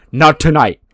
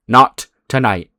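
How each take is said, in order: First: Loud, high, emphatic "Not tonight"; acted insistence on "Not tonight"; firm refusal. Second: Slow "Not tonight" with a gap between the words; acted, spaced-out "Not tonight"; measured refusal. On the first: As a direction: push "Not tonight" out firmly as a raised order. Official forbids fight, first take. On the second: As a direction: repeat "Not tonight" deliberately, letting it settle. Official repeats it more slowly.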